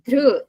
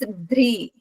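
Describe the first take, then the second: First: The vowel sound after dh is ru. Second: The vowel sound after dh is ri. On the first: This is how the speaker's own region reads it. "We read it as dhru" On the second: This is how northern readers read it. "north people will read as dhri"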